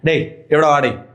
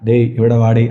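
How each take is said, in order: First: The volume is a balanced medium level. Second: The volume is not a balanced medium level. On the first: The speaker calls it right. "ആ ഒരു medium sound" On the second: The speaker calls it wrong. "അങ്ങനെയല്ല"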